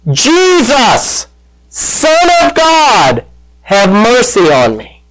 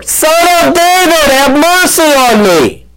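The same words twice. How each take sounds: First: Drawn-out, high-pitched call without real volume; imitated yell. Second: High-pitched, insistent cry; imitated louder shout. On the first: Blind beggar to passing Jesus, a retold yell. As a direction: call out high and stretched, easing down on the plea. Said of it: "he yells out". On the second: Blind beggar defying the crowd, a retold louder shout. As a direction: call out much higher, pleading over the hushing crowd. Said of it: "He only shouted louder".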